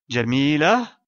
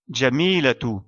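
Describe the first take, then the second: First: The word ends in a soft h sound. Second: The word ends in a t plus vowel. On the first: The sentence stops after this word. "sera prononcée comme la lettre ha" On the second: The sentence continues after this word. "on doit prononcer son ta marbuta comme la lettre ta, ainsi que la voyelle"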